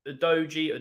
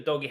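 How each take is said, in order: First: "Udogie" said oo-DOH-jee; soft G pronunciation. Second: "Udogie" said oo-DOG-ee; hard G pronunciation. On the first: Fan unsure of his player's name, "Udogie" with a j sound. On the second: Fan offering another version, "Udogie" with a hard g. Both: Shown as a demonstration. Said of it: "however you pronounce his name".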